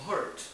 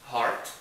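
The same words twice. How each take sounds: First: Higher "hurt" with its central vowel; hurt, contrasted with heart. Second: Loud, low, open-vowelled "heart"; heart, contrasted with hurt. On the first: Teacher contrasting two different words, "hurt" pronounced clearly. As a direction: make "hurt" distinct from "heart". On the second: Teacher contrasting two different words, "heart" pronounced clearly. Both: Shown as a demonstration.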